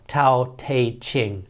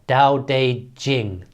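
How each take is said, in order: First: The middle word begins with a T sound. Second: The middle word begins with a D sound. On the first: "but I'm going to call it the Tao Tao Te Ching" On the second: "Americans call it the Tao Tao De Jing. They they take a T and make it like a D"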